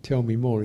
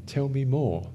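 First: Gently asking for more, a little louder; compassionate invitation. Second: A touch higher, inviting; inviting curiosity. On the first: Teacher naming the compassionate approach, gently inviting. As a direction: welcome it with compassion. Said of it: "called compassion". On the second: Teacher demonstrating a compassionate response, inviting. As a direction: gently ask to hear more. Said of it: "this is a good attitude". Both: Shown as a demonstration.

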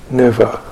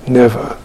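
No difference in how they are said.

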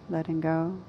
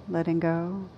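No difference in how they are said.

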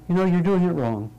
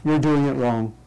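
First: Higher, kindly, no judgment in it; benevolently. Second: Judgmental. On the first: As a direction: point out the mistake with goodwill. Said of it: "someone saying benevolently". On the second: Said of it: "this is where it gets interesting". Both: Shown as a demonstration.

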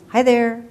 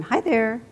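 First: Put-on high, loud baby squeal of joy; squealing with glee. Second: Said in the usual way. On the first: A narrator's reading. Toddler greeting a stranger, squealing with glee. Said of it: "heard Eric squeal with glee". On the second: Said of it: "Two words he thought were one".

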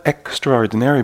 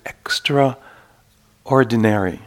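First: Said in the usual way. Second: EXTRAORDINARY split slowly into extra, pause, ordinary; extra, then ordinary. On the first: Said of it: "Not extraordinary, but just". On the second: Shown as a demonstration. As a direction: say extraordinary as two separate words, extra and ordinary, drawn out. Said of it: "just a little bit extraordinary".

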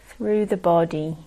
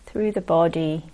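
Both takes have the same delivery.

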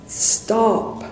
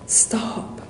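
First: A high, sharp mock shout of "Stop!". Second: "Stop!" whispered, breath only; whispered echo. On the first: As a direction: call out "Stop!" after someone walking away. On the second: Retold or imitated. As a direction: let the second "Stop!" fall to a whisper. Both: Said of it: "he shouts".

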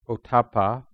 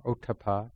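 First: "Ottappa" stressed on the middle syllable, oh-TAH-puh; alternative pronunciation. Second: "Ottappa" with a light middle syllable, OH-tuh-pah; alternative pronunciation. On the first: Teacher giving one pronunciation of the term, "Ottappa" as oh-TAH-puh. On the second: Teacher offering the other pronunciation of the term, "Ottappa" as OH-tuh-pah. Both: Shown as a demonstration. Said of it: "depending on how people pronounce it".

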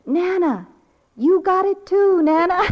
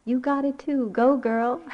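First: Put-on high, loud little-girl cheer; imitated child's yell. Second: Higher, lightly voiced child's cheer; imitated granddaughter. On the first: Granddaughter yelling to Nana through the phone, imitated yell. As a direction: holler it gleefully like a small child. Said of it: "She was yelling". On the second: Grandmother recalling granddaughter when losing heart, mildly imitated cheer. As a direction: echo a little girl's encouragement, only mildly raised. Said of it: "I always remember her".

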